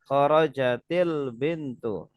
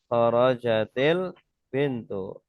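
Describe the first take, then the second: First: An i vowel links kharajat to the next word. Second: The same.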